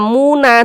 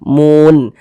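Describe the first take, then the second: First: The word ends with an added a vowel. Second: The word ends on a plain n sound. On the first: The speaker calls it wrong. "Tidak dibaca muna" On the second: The speaker calls it right. "tapi dibaca mun"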